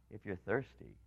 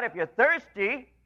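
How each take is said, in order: First: Much softer, lower and hushed; soft invitation. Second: Raised, slow calling out; crying out. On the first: Acted. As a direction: draw the listener in gently. Soft invitation after the call. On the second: Retold or imitated. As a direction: call it out slowly like an open invitation. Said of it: "he cries out".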